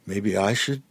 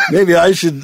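First: Said in the usual way. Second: Loud, high laughing retake. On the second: Real, not acted. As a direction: laugh the words out. Bursts out laughing after pause.

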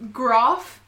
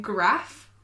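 First: "graph" slowly with a long AH, like "grahf"; slow, posh long-A "graph"; broad-A pronunciation. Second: "graph" slowly with the short A of "cat"; slow short-vowelled "graph"; short-A pronunciation. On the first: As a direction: say "graph" with the vowel of "father", drawn out. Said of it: "graph and graph". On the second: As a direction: say "graph" with a front A, the bogan way. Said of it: "Graph sounds bogan to me". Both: Shown as a demonstration.

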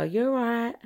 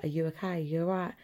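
First: Higher, breezy "You're right" as a hello; lifted, offhand Essex greeting; casual greeting. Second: Quiet, caring check on someone; concerned check-in. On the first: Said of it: "Whereas we just go". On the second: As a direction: ask gently as if they're upset. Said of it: "if you're upset, people would be like". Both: Shown as a demonstration.

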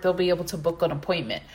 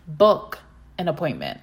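First: Said in the usual way. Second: "Book" punched, set apart from the rest; stress on book. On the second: Shown as a demonstration. To the listening therapists, repeating it with weight on "Book". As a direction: lean hard on the word "Book". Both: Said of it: "I wanna emphasize the word booking".

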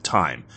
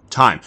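First: Said in the usual way. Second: TIME burst out louder and higher; Time. hit hard as it dawns; sudden realization. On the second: Acted. Jack realizing his time was stolen, louder Time.

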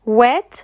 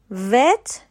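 First: "wet" with rounded-lip W; W sound. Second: "wet" pronounced vet, with a V; V sound. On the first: Teacher repeating second word, "wet" said with W. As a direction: round the lips into "wet", rising at the end. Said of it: "W E T". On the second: Teacher repeating first word, "wet" said with V. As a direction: bite the lip lightly for V in "wet", as vet. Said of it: "وی ای تی بود". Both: Shown as a demonstration.

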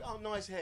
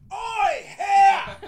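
First: Complimentary. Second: Loud, high street heckle; mimicked hostile holler; aggressive shout. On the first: Retold or imitated. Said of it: "I've been complimented before". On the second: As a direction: yell it like an accusation. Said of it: "This sounded different".

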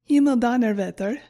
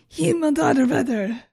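First: "Himmeldonnerwetter" presented firmly, a little louder; German pronunciation. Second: Exclaimed German curse, higher and louder; mock frustration. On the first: Shown as a demonstration. Host introducing a German swear, "Himmeldonnerwetter" in careful German. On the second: Host imagining a really shitty situation, mock frustrated outburst. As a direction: swear in hammed-up frustration. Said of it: "how I'm going to pronounce my frustration".

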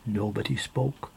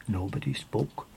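The two takes are said the same way.

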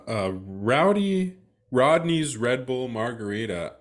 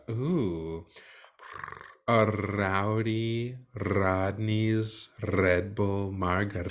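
First: Said in the usual way. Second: Drawn-out, slow, lower order; slow savoring. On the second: Shown as a demonstration. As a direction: savor each word slowly.

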